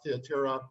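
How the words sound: The name is said with a Greek pronunciation. "I pronounce it the Greek way"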